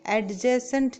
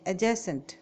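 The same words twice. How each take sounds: First: "एडजेसेंट" with a sounded D; wrong pronunciation. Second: "एडजेसेंट" with a silent D; correct pronunciation. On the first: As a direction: say "एडजेसेंट" as ad-jacent. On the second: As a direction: say "एडजेसेंट" as a-jacent. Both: Shown as a demonstration. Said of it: "नहीं बोलेंगे".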